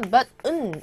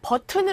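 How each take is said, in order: First: Said the native way with a swallowed T. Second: Said as the Korean loanword with a full T. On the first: The speaker calls it right. "원어민들은 ... button 이렇게 들려요" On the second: The speaker calls it wrong. "버튼을 하고 원어민들은 발음을 안 하고요"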